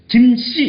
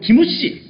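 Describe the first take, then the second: First: The final m is said without an added vowel. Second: A vowel is added after the final m. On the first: "우리는 받침을 다 할 수 있거든" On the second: "얘네들은 김씨라고 발음하면 김우씨 이렇게 발음하죠"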